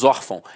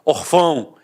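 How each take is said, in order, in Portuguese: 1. A tônica está na primeira sílaba. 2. A tônica está na última sílaba. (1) "a sílaba tônica está na penúltima" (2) "se fosse um acento gráfico, eu não falaria órfão, eu falaria orfão"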